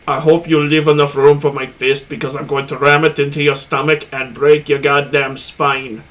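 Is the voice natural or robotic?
robotic. It is said in a robotic voice.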